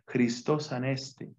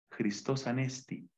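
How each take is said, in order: First: The last word ends with an 'eh' vowel. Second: The last word ends with an 'ee' vowel. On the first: This is the older Greek reading. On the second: This is how modern Greek says it.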